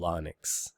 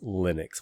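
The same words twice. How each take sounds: First: The first syllable sounds like English 'Linus'. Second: The first syllable does not sound like 'Linus'. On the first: The speaker calls it wrong. "if you pronounce his name as Linus, like you would in English" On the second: The speaker calls it right. "the accepted pronunciation by most people is Linux, which is actually neither name"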